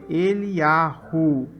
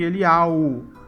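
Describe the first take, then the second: First: An h sound is heard before the final vowel. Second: No h sound is heard before the final vowel. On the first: The speaker calls it right. "com a letra, que ela tá ali, ela tem som" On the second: The speaker calls it wrong. "A diferença de Eliau"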